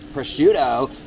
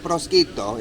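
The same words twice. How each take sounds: First: It is said with an American pronunciation. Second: It is said with an Italian pronunciation. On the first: "as Americans would say" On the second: "Is it prosciutto in, in Italian?"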